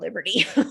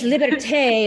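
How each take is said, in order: First: The name is said with an English pronunciation. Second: The name is said with a French pronunciation. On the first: "So I just call it liberty" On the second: "it's French"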